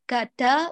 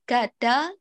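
The two takes are said the same way.

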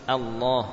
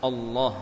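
First: The opening hamzah is made light and thin. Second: The opening hamzah is made heavy and dark. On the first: The speaker calls it right. "bacalah dengan tipis" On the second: The speaker calls it wrong. "Jangan mendahului atau jangan menebalkan hamzah. Allah misalkan. O"

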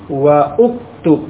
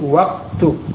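First: A separate 'u' vowel is said after 'wa'. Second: 'Wa' runs straight into the 'k' sound. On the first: The speaker calls it wrong. "Bukan wa'uktub. Bukan seperti itu" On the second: The speaker calls it right. "Tapi waktub. / Wawu langsung ke kafnya"

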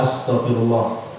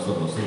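First: It is said slowly and clearly. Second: It is said quickly and indistinctly. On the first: The request is sincerely meant. The speaker calls it right. "Kalau benar-benar kita mohon kepada Allah" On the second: The request is not truly meant. The speaker calls it wrong. "Tidak jelas bacaannya"

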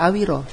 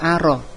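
First: The word has three syllables with a w sound. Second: The word has two syllables with no w sound. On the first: The speaker calls it right. "kita baca awiro" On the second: The speaker calls it wrong. "bukan dibaca aro"

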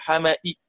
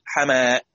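First: The final hamza is fully said with a faint i. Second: The final hamza becomes a long a sound. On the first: The speaker calls it wrong. "لازم نحقق الهمزة" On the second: The speaker calls it right. "صارت همزة ساكنة وقبلها مفتوح يبقى تبدل"

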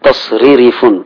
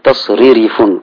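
No difference in how they are said.

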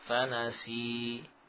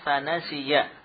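First: The word ends with a long i vowel. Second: The word ends with a short -ya syllable. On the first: The reader stops on this word. "kita baca sebagai huruf mad memanjangkan kasrah" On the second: The reader continues into the next word. "bila kita wasalkan"

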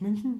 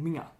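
First: The name is said in Standard German form. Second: The name is said in Bavarian dialect form. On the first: This is how outsiders say it. "Die sagen ja nicht München" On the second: This is how the locals say it. "die sagen Minga"

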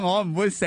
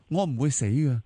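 First: It is said in a mocking, bickering tone. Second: It is said in a warm, loving tone. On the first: The two people are playfully squabbling. "兩個人鬥氣喺度玩嗰種" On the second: The two people adore each other. "从一个都系互相倾慕、爱慕嗰个嘅语气嚟到讲"

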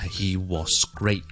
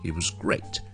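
First: The word 'was' is said in its full form. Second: The word 'was' is said in a weak form. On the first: The speaker calls it wrong. "我就唔會讀成咧he was great 咁樣嘅" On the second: The speaker calls it right. "而係he was great... the word was is actually pronounced very, very, very weakly"

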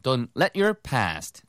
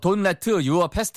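First: It is said with a strong bouncy rhythm. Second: It is said flat, with even beats. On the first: The speaker calls it right. "핵심은 리듬을 좀 타보세요" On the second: The speaker calls it wrong. "이렇게 하지 마시고요"

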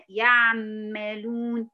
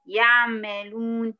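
The two takes are said the same way.

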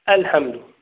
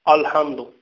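First: The opening glottal stop is light and thin. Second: The opening glottal stop is heavy and emphatic. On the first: The speaker calls it right. "لا، الحمد مرقق" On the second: The speaker calls it wrong. "من يقول يقرأ الحمد الفاتحة ويقول الحمد؟"

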